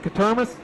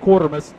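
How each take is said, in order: First: The name begins with a short 'kat' sound. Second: The name begins with a 'kwor' sound. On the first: The speaker calls it right. "Spot on" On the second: The speaker calls it wrong. "for two years I said Quartermas"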